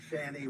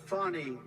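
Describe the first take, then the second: First: Fani said with the short A of "fan"; FANI with a flat A. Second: Fani with an open "ah" in the first syllable; FANI pronounced "Fah-nee". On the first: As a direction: say Fani to rhyme with "granny". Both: Shown as a demonstration. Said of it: "it's actually pronounced".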